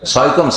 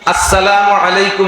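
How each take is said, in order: First: The greeting is slurred into a short mumble. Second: Every syllable of the greeting is clearly pronounced. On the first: The greeting is given carelessly. The speaker calls it wrong. "ফোনে সালাম দেয় কিরকম?" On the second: The greeting is given properly. The speaker calls it right. "আসসালামু আলাইকুম পরিষ্কার করে বলবেন।"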